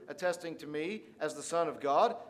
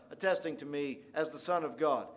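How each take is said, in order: Both takes have the same delivery.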